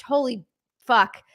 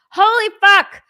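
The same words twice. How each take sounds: First: Said in the usual way. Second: Loud, high burst of disbelief; real shocked outburst; amazed exclamation. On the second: Real, not acted. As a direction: blurt it out loud, astonished. Repeats swear, amazed at donations.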